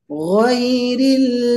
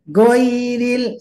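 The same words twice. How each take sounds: First: The first consonant is made in the throat. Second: The first consonant is made with the tongue. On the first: The speaker calls it right. "Ghairi harus tenggorokan, bukan lidah" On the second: The speaker calls it wrong. "Tidak ghairil, hati-hati"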